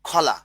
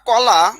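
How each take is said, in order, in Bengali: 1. প্রথম ব্যঞ্জনটি একটি aspirated kh। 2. প্রথম ব্যঞ্জনটি একটি সাধারণ k।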